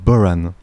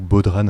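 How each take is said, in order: First: The word is pronounced in an Irish way. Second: The word is pronounced in a French way.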